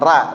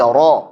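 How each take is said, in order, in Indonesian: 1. Huruf r ringan dengan vokal tipis. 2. Huruf r berat dengan vokal penuh. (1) "Jangan ra" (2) "tapi ro"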